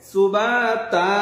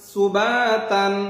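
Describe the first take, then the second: First: The word ends on a vowel, without 'n'. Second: The word ends with an 'n' sound. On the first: The reader stops at this word. "ওয়াকফ করলে কি হবে?" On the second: The reader continues without stopping. "তা আলিফ দুই জবর তান"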